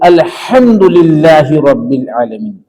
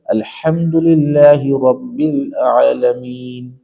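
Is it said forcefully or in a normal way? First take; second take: forcefully; normal. First: It is said forcefully, with strong emphasis. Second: It is said in a normal, relaxed way.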